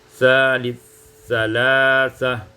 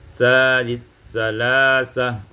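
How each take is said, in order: No difference in how they are said.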